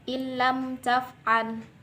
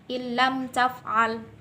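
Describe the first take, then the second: No difference in how they are said.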